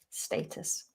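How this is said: It is said in a British English accent. "But in British English, we say status"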